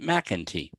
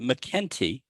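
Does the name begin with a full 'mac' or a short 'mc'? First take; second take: full mac; short mc. First: The name begins with a full 'mac' sound. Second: The name begins with a short 'mc' sound. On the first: This is how most people say the name. "most people pronounce it McEntee" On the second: This is how the name's owner says it. "I pronounce it McKenty as if the A were not there"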